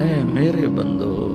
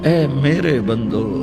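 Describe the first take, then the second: Both takes have the same delivery.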